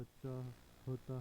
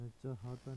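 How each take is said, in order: First: चाहता drawn out slowly; slow चाहता, chah then ta; correct form. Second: चाहता with extra a, cha-ha-ta; wrong form. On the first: Teacher giving the correction, slow careful चाहता. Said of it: "होता है". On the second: Teacher showing learners the mistake, चाहता as chahata. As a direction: say चाहता in three even syllables. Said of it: "नहीं होता". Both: Shown as a demonstration.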